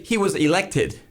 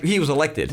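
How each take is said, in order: First: "elected" with a crisp British T; enunciated T. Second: "elected" with its T softened toward D; American soft T. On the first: American showing how Briton says "elected", crisp T. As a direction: sound the T clearly in "elected". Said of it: "you would say he was elected". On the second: American showing own way of saying "elected", T softened toward D. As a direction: say "elected" loosely, T nearly a D. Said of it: "Americans like to turn T's into D's". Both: Shown as a demonstration.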